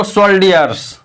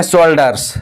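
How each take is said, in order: First: "सोल्डियर्स" with hard d plus an i-glide, sol-di-yers; spell-it-out misreading of "सोल्डियर्स", di-yers at the end; misread soldiers. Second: "शोल्डर्स" in two syllables, hard d, no i-glide; misread soldiers. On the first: Teacher showing how some students misread it, "सोल्डियर्स" as sol-di-yers. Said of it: "कुछ लोग पढ़ते हैं इसको सोल्डियर्स". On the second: Teacher showing students a common misreading, "शोल्डर्स" with hard d. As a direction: say "शोल्डर्स" with a plain hard d sound before -ers. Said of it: "कुछ लोग इसको पढ़ लेते हैं शोल्डर्स". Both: Shown as a demonstration.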